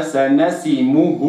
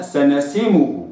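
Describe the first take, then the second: First: سنسمه with the kasra fully completed before the u, slow; correct reading. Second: سنسمه with the kasra not completed; سنسمه read wrongly. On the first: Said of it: "وإنما". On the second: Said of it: "لا أقرأها". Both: Shown as a demonstration.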